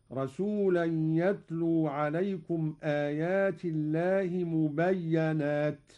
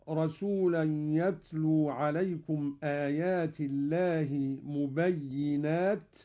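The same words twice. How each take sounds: First: مبينات with a doubled ya and a on it, mubayyanat; Qalun reading. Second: Said in the usual way. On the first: Shown as a demonstration. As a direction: say مبينات as mu-bay-ya-nat. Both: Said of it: "قرأ قالون بفتح الياء مشددة".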